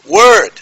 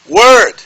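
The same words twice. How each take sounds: Both takes have the same delivery.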